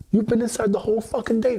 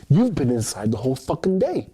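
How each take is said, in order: First: Mock granny yell. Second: Mock scolding. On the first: Voicing granny's scolding, higher. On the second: Voicing granny's scolding.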